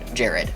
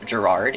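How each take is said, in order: First: The name is said as Jared, stress on the first syllable. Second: The name is said as Gerard, stress on the second syllable. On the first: This is how one character reads the name. The speaker calls it wrong. "it is pronounced like uh, Jared" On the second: This is how most characters say the name. The speaker calls it right. "many other characters do say his name as Gerard"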